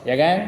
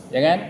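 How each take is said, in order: Both takes have the same delivery.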